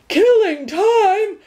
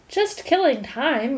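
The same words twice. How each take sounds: First: Very slow, high and loud outraged roar. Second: Slow, apologetic reply. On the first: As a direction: roar it back in disbelief. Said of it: "roared the dog". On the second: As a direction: say it sheepishly, excusing yourself. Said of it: "replied Milo apologetically". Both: A narrator's reading.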